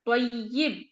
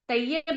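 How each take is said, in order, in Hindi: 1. अंतिम अक्षर में 'i' स्वर है। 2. अंतिम अक्षर में 'a' स्वर है। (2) "तय्यब नहीं कोई कहेगा"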